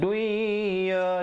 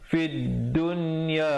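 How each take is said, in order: First: The n is nasalized and blended into y. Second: The n is clear with no nasal hum. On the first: The speaker calls it wrong. "Jangan dunya, itu tak betul" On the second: The speaker calls it right. "terus jelaskan saja dun, terus masuk ya"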